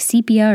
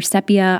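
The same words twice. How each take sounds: First: "sepia" said SEE-pee-uh; long-e pronunciation. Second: "sepia" said SEP-ee-uh; short-e pronunciation. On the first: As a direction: say "sepia" with a long ee in the first syllable. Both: Shown as a demonstration. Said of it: "don't know even how to pronounce it".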